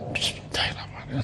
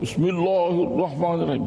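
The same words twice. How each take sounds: First: It is said very softly, barely audible. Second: It is said very loudly, almost shouted. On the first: "sampai orang tak dengar" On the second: "dalam sembahyang tu menjerit"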